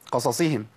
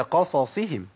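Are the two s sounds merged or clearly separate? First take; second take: merged; separate. First: The two s sounds blur almost into one. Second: The two s sounds each come out clearly. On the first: The speaker calls it wrong. "كتير من الناس بيقول قصصهم، قصصهم كده... اختلست من الحركات فبقت الصادين الاثنين... كانهم صاد واحده بس قسمتها نصين" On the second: The speaker calls it right. "هي قصصهم"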